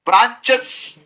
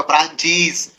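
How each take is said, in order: First: ब्रांचेस ending in a short, hissed chs; awkward wrong plural. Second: ब्रांचीज with long ee and buzzing z; corrected plural. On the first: Teacher showing students what cannot be said, awkward plural. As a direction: squeeze च and s together in ब्रांचेस. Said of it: "नहीं बोल पा रहे हैं". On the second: Teacher giving the sayable form after the failed one, corrected plural. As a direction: end ब्रांचीज in a clear cheez. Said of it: "तो ब्रांचीज". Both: Shown as a demonstration.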